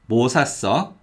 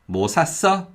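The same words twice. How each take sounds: First: The stress falls on the first word. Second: The stress falls on the verb. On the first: The speaker asks what was bought. "if the stress is on 뭐, 뭐 means what" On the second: The speaker asks whether something was bought. "if the stress is on the verb, then 뭐 means something"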